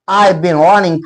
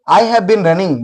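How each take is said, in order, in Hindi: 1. शब्द have पूरी तरह छोड़ दिया जाता है। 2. शब्द have पूरा बोला जाता है।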